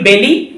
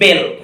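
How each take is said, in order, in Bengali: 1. নামটি একটি যুক্ত 'ee' স্বরধ্বনি দিয়ে শেষ হয়। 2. নামটি 'l' ব্যঞ্জনধ্বনির উপর শেষ হয়। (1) "এটাও বলা যায়" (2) "সেটুকু উচ্চারণ করা যায়"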